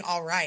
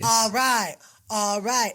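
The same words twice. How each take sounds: First: Said in the usual way. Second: Imitating the singer's fake English "all right"; mock Italian-pop "all right", a bit louder. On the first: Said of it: "They're not saying". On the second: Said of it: "They're not saying "all right".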